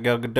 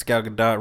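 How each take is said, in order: First: Gadot said guh-DOH, no final T; Gadot with silent T. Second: Gadot said guh-DOT, T sounded; Gadot with final T. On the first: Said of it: "Everybody thought it was Gadot". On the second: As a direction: say Gadot ending in a clear "dot". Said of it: "Not Gal Gadot". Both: Shown as a demonstration.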